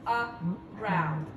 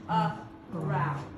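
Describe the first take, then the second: The two takes are said the same way.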